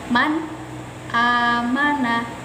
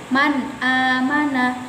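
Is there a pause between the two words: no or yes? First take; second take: yes; no. First: There is a pause between the two words. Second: The two words run together with no pause. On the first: The speaker calls it wrong. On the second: The speaker calls it right.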